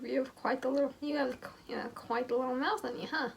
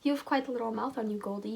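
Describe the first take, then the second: First: Hammed-up smirking bad boy, higher and louder; exaggerated smirk. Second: Smirking Owen. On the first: Mocking how Owen smirks at Amber, hammed-up cocky smirk. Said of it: "I imagine this". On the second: Acted. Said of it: "he says with a smirk".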